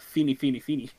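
It is said the way Germans would say it.

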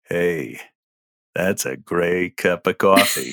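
It is voiced as a groin-centered character.

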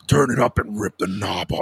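It is said in a disguised, devilish voice.

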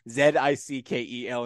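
The first letter is said as zed. "Do you hear my Canadian right there, Leo? Zed? I've had to teach myself"

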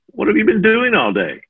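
The question sounds accusing and critical.

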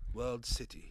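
It is said in a put-on British accent.

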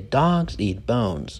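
The stress is on 'dogs' and 'bones'. The speaker calls it right. "you say dogs eat bones"

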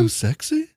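It is said as a rising question.

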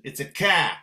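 It is said in a Boston accent.

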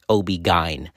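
Gyn begins with a hard g sound. This is how it is said in the Northeast. "but in the Northeast, it's OB gyn"

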